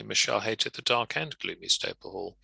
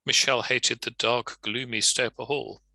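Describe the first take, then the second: First: "dark and gloomy" run smoothly together; plain, flowing reading with "and"; joined with and. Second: A small pause after "dark," before "gloomy"; comma pause version. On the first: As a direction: read it straight through, no pause. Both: Shown as a demonstration. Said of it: "or alternatively".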